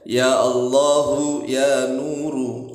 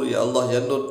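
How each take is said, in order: First: The final vowels of both words are pronounced. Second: The final vowels of both words are dropped. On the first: The speaker calls it right. "Tetapi ya Allahu nya dibaca" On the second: The speaker calls it wrong. "jangan dibaca ya Allah ya Nur"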